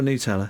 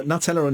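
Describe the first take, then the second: First: Nutella said as noo-TELL-a; Italian pronunciation. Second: Nutella said as nut-ELLA; English pronunciation. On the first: Presenter offering the other choice, noo-TELL-a for Nutella. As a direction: begin Nutella with a long oo. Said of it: "Is it". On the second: Presenter offering the guest a choice, nut-ELLA for Nutella. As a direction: begin Nutella like the word nut. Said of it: "What do you spread on your bread?". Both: Shown as a demonstration.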